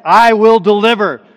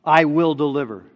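First: "I will deliver" loud and high; emphatic. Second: "I will deliver" firm but restrained; measured repeat. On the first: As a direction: shout "I will deliver" in one forceful sweep. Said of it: "It's emphatic". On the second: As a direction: settle "I will deliver" down, firmly. Repeats the promise more calmly. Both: Shown as a demonstration.

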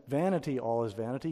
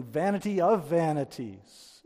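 First: Said in the usual way. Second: "Vanity of vanities" slow, higher and louder, weight on each "Vanity"; stress on vanities. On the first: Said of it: "He's not just saying". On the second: Shown as a demonstration. Preacher showing the doubled Hebrew to his listeners, slow and emphatic. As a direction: lean hard into "Vanity of vanities", slowly. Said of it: "He's saying".

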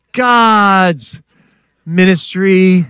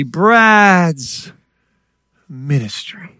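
First: "God's ministry" loud, high and drawn out; ringing, slow stress on both words of "God's ministry"; emphatic correction. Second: Slow, self-admiring "Brad's ministry"; mock self-importance. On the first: Real, not acted. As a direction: proclaim GOD'S, then slow, forceful "ministry". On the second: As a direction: savor your own name grandly, then hush on "ministry". Mocks his own former grand idea.

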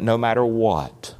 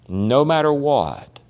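First: Said in the usual way. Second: Slow quiet echo. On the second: Shown as a demonstration. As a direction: repeat it slower and much softer.

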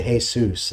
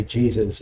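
First: "Jesus" said the Spanish way, hay-SOOS; Spanish pronunciation. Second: "Jesus" said the English way, JEE-zuz; English pronunciation. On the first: Preacher comparing name forms, "Jesus" pronounced hay-SOOS as in Spanish. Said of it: "some people say". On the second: Preacher comparing name forms, "Jesus" pronounced in English as JEE-zuz. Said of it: "pronounced in the world today in various ways". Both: Shown as a demonstration.

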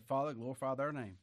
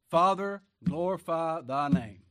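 First: Said in the usual way. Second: Loud, slow plea to heaven; ringing prayer. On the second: Acted. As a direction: call Father out with full voice. Quoting Jesus' prayer aloud.

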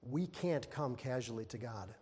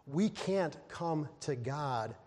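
First: Said in the usual way. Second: "We can't come to God" slowly drawn out; slow emphasis. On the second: Shown as a demonstration. Preacher warning the church, slow and deliberate. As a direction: stretch each word in "We can't come to God".

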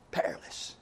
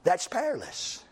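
First: "Perilous" softly whispered, no voice; whispered repeat. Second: Said in the usual way. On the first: Shown as a demonstration. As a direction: breathe "Perilous" as a hushed warning. Repeats word, second whispered.

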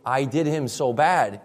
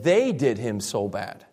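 First: "I did him so bad" with a slow, plain "I" at the start; quoting the prosecution's hearing, slow and even; stress on I. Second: "They did him so bad" slowly, with "They" clearly the prominent word; stress on THEY. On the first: Pastor quoting the version the defense rejects, slow and even. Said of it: "he didn't say". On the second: Pastor giving the defense's version, leaning on "They". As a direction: lean on "They" to fix the meaning. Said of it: "He said".

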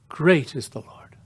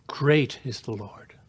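First: Whispered reverently, no voice. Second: Said in the usual way. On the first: Shown as a demonstration. Preacher repeating the psalm to the congregation in a whisper. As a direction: breathe "Great is the Lord" as a hushed whisper.

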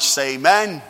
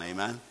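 First: A big, loud call for amen; loud preacher's call for amen. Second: Soft, low, light amen; just breathe a light amen; a gentle, hushed amen. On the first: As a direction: belt out the amen. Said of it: "A little too loud there". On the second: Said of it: "just a light one". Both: Shown as a demonstration.

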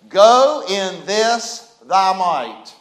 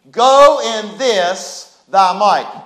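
First: Each word drawn out slowly; slow solemn command. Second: Same phrase slow and louder; louder proclaim. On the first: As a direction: deliver it slowly like God's word. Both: Shown as a demonstration.

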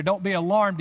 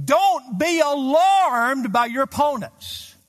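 First: Said in the usual way. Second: Slow, loud, high, leaning on "alarmed"; ringing scripture quote; emphatic verse reading. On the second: Shown as a demonstration. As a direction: proclaim the verse, stretching "alarmed". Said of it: "Don't be alarmed," he says".

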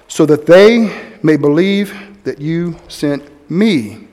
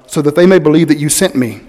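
First: "they" stressed, the whole line slow and drawn out. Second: "may" stressed, the rest said evenly. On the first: Preacher meditating aloud, stressing "they", slow. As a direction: lean on "they" as you say it slowly. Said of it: "place an emphasis on different words". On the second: Preacher rereading the prayer aloud, stressing "may". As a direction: lean on the word "may". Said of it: "I'll read this sentence, this prayer, as". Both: Shown as a demonstration.

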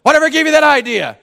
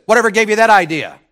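First: Much higher and louder, exact retort; neighbor's retort again. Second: Higher, louder gruff retort; retold neighbor's retort. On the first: Retold or imitated. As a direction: replay it word for word, bigger. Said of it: "Just like that". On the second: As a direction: toss the question back in a loud voice. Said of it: "he turned back around and he said".

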